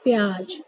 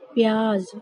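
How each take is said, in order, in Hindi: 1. अंतिम व्यंजन j ध्वनि है। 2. अंतिम व्यंजन z ध्वनि है। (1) "ना कि प्याज" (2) "इसको हम लोग बोलेंगे प्याज"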